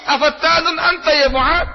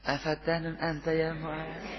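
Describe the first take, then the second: First: It is said in a firm, very angry tone. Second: It is said in a smiling, gentle tone.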